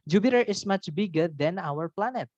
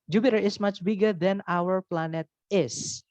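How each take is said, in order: First: Said in the usual way. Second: Each English word laid out slowly; slow teacher demo; slow careful model sentence. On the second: Shown as a demonstration. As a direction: read it slowly for the class. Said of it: "Itu juga boleh".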